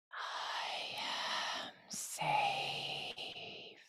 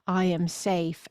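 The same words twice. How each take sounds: First: Very slow, drawn-out whisper on the breath; breathed, unvoiced whisper. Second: Said in the usual way. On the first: Shown as a demonstration. Teacher showing words carried in the breath, slow whisper. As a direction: breathe the words out, stretching each one. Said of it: "didn't speak it and I just breathed it". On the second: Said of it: "If I speak it, I can hear it".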